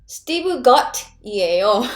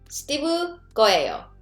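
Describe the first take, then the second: First: The ending is said in full, unreduced form. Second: The ending is shortened into a contracted form. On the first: It sounds formal. "if you do formal, ... That's like formal" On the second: It sounds natural in conversation. "Spoken, you know, make it simpler"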